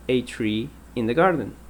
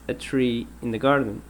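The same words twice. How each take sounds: The two takes are said the same way.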